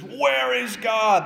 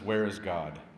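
First: It is screamed very loudly. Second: It is said at normal loudness.

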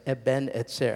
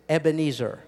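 First: It is said as two separate words. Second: It is run together as one word. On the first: "It's two Hebrew words" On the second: "How about if I say it like this?"

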